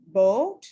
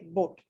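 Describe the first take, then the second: First: The vowel glides as the lips close. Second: The vowel stays steady without gliding. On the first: The speaker calls it right. "we do not say boat" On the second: The speaker calls it wrong. "we say boat, which is incorrect"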